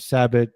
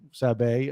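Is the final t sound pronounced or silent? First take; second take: pronounced; silent. First: The name ends with a pronounced t sound. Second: The name ends without a t sound.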